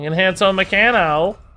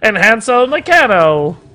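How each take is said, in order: First: It is said in his ordinary voice. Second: It is said in a put-on, old-timey hawker voice. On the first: "I said that wrong" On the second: "like an old newspaper salesman"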